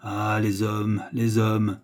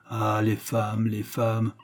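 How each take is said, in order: First: Slow, understated despairing sigh of words; mild despair. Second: Understated, sighing disdain; sad disdain. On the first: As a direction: lament it slowly, with restrained hopelessness. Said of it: "il vous dit bientôt avec désespérance". (désespérance contenue, lente) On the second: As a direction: sigh it out softly, mildly scornful and sad. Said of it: "il soupira avec un triste dédain". (triste dédain, à peine soupiré) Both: A narrator's reading.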